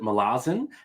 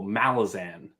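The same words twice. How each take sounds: First: The stress falls on a later syllable. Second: The stress falls on the first syllable. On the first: "a lot of people pronounce it Malazan" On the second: "the emphasis is on the first syllable"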